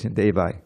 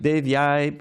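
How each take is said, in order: First: No 'y' sound comes before the final vowel. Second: A clear 'y' sound comes before the final vowel. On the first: It refers to the demigods. The speaker calls it wrong. "they've been chanting that way for fifty years" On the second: It refers to the goddess Tulsi Devi. The speaker calls it right. "If you don't say Dev Yai"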